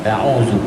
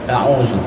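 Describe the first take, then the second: Both takes have the same delivery.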